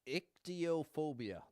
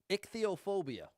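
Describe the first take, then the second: First: The middle consonant is a plain t sound. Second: The middle consonant is a th sound. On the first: The speaker calls it wrong. "That would be my guess. ... I was thinking the h would be silent" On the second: The speaker calls it right. "It's a th instead of a t sound"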